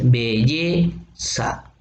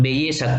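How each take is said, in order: First: "belleza" drawn out syllable by syllable, leaning on the "lle"; stressed-syllable demo. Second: Said in the usual way. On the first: Shown as a demonstration. Teacher showing students the accented vowel, "belleza" split slowly on "lle". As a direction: say "belleza" very slowly, stretching the stressed e, then "za" apart. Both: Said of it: "¿cuál es la última vocal acentuada?".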